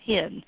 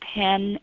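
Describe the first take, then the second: First: The vowel is a closer 'i' as in 'pin'. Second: The vowel is an open 'e' as in 'pen'. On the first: "people will pronounce them both about the same" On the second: "the words that I pronounce pen and pin"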